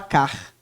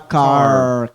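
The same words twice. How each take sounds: First: The R sounds from the throat, Portuguese style. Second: The R is made with a curled tongue. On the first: The speaker calls it wrong. "Você não fala car" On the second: The speaker calls it right. "você fala car"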